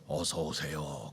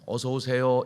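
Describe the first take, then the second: First: It is said at a very low pitch. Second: It is said at a moderately raised pitch. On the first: The greeting sounds odd. The speaker calls it wrong. "아주 저음으로 어서 오세요 그러면은 이게 이상하잖아요" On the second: The greeting sounds welcoming and stays in the ear. The speaker calls it right. "솔 음으로 어서 오세요 이렇게 하면은 쏙 들어온다고"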